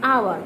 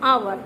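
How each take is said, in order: The two takes are said the same way.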